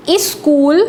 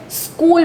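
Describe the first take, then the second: First: स्कूल said as "is-kool", with an extra "i" at the start; wrong pronunciation. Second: स्कूल said as "skool", starting straight on the s; correct pronunciation. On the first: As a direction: stretch स्कूल into "is-kool", the way it should not be said. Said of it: "तो आपका बिल्कुल गलत हो जाएगा". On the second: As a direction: say स्कूल cleanly as "skool" with no vowel before it. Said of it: "क्या पढ़ते हैं आप इसे". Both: Shown as a demonstration.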